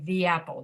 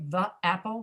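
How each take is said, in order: First: 'The' is said with a full 'ee' vowel, 'thee'. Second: 'The' is said with a weak schwa vowel, 'thuh'. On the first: The speaker calls it right. "we say the apple to make it easier to say" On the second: The speaker calls it wrong. "we don't say the apple"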